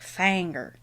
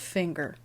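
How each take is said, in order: First: It is said with a southern twang. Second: It is said in a plain accent.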